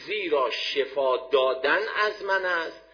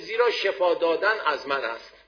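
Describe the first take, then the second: First: It is said with a questioning intonation. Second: It is said with a plain statement intonation. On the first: God does not heal directly but through remedies. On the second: God is the one who heals.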